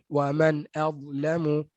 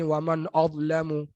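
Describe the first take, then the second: First: The hamzah is pronounced light and thin. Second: The hamzah is pronounced heavy and thick. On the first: The speaker calls it right. "masukkan dengan cara yang betul" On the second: The speaker calls it wrong. "Jadi tebal hamzah tu"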